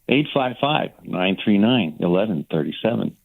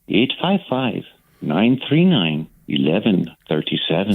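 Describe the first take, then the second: First: It is read in a natural everyday voice. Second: It is read in a put-on performing voice. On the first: The speaker calls it right. "Do it in your own voice" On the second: The speaker calls it wrong. "everybody tries to do it like you"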